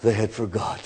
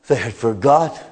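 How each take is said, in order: First: Dropped low and much softer; hushed, lower and much softer. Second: Said in the usual way. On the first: Acted. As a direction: let it fall to a near-whisper.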